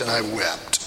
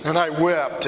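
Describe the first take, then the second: First: Sad fade. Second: Said in the usual way. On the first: Acted. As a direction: let it sink away in grief. Peter's weeping fades.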